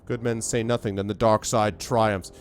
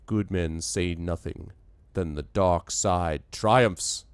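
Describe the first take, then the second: First: It is said in an ordinary voice. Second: It is said in a deeper voice. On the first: The speaker calls it wrong. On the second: The speaker calls it right.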